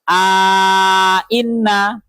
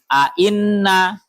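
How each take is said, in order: First: Both glottal stops are full, with a long vowel between. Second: Both glottal stops are full, with no vowel between. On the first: "dengan tahqiqil hamzaten tapi dengan memasukkan alif" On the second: "tulis tahqiqil hamzaten dan juga tidak ada alif"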